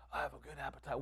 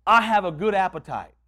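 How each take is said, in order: First: Very soft, low imitation of a frail woman; weak repeating. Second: Said in the usual way. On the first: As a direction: repeat it feebly, barely audible. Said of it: "So she". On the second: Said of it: "Repeat after me".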